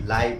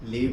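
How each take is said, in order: First: The vowel glides, as in 'lie'. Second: The vowel is long, as in 'leave'. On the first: It means alive. "लाइव मतलब सजीव" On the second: It means to reside. "लीव मतलब रहना"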